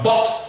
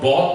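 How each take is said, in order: First: The vowel is short, sharp, between A and O. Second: The vowel sounds like a rounded O. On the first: The speaker calls it right. "but bot" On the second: The speaker calls it wrong. "it's not bot"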